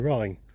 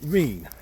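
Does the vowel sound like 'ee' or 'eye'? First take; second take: eye; ee. First: The vowel sounds like 'eye'. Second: The vowel sounds like 'ee'. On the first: This follows the spelling of the word. "it's spelled as in like R H I N E, as in Rhine" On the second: This is how locals have always said it. "I've always been brought up pronouncing it Reen"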